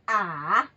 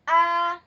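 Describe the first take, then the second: First: The syllable is said in the dipping third tone. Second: The syllable is said in the first tone. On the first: "it goes down and then it goes up" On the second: "That's a first"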